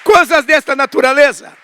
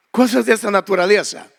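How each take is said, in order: First: High, loud preacher's exclamation; exclaiming. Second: Said in the usual way. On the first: Real, not acted. Preacher to congregation after a provision testimony, exclaiming. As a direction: call it out raised over the crowd.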